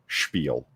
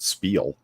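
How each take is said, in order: First: The word is said with a Yiddish pronunciation. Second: The word is said with a plain English pronunciation. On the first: The speaker calls it right. "that's like Yiddish spiel. That's why you say it like that" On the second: The speaker calls it wrong. "It's not spiel"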